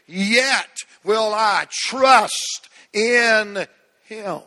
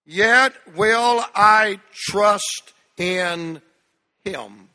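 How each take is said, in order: First: Preached declaration. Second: Louder and very slow, leading the room; loud congregational reading. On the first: Declares Job verse to church. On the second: Pastor leading congregation in reading, loud and slow. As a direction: lead the church through each word. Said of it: "read it out loud with me, church". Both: Acted.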